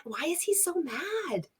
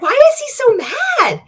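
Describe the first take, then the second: First: Much softer, higher, a bewildered aside; quietly baffled, half to herself; soft puzzled question to the viewers; baffled murmur. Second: Much higher and louder, incredulous; loud disbelieving question to the viewers; exasperated outburst. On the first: Baffled at the angry clip. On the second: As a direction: throw it out in disbelief. Exasperated at the ranting clip. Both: Real, not acted.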